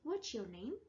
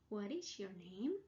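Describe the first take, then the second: First: The question is spoken quickly with words contracted. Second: The question is spoken slowly with full words.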